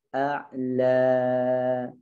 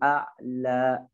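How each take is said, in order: First: The long final vowel fades out smoothly. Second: The final vowel is pressed and cut off abruptly. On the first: The speaker calls it right. "gitu ya" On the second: The speaker calls it wrong. "jangan a'la ditekan begitu"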